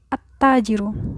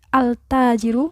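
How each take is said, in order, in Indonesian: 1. L melebur ke konsonan setelahnya. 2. L pada artikel diucapkan dengan jelas. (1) "tapi at-tajiru. Jadi langsung melebur"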